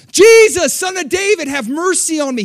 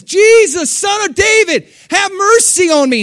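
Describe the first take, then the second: First: High, loud plea with a long-held first word; crying out loud. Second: High, loud desperate cry for mercy; yelling above the crowd. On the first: Blind beggar crying out again to Jesus, loud plea. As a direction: shout the name over everyone. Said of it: "He cries out". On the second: Blind beggar yelling for Jesus above the crowd, desperate cry. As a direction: call out over a throng, begging. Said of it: "he's yelling above the crowd". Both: Retold or imitated.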